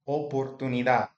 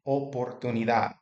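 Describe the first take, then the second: The two takes are said the same way.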